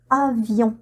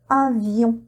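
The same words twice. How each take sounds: The two takes are said the same way.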